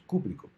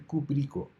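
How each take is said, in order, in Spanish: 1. El acento cae en la primera sílaba. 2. El acento cae en una sílaba posterior. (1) "habría que marcar la tilde en la primera sílaba" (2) "no es cuprico"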